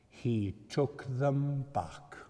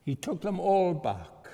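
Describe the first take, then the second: First: Slow, gentle statement; slow and measured. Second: Higher and louder, stress on all; preacher's exultant repeat; triumphant swell. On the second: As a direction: lift it with joy on all. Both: Acted. Repeated line, quiet then loud.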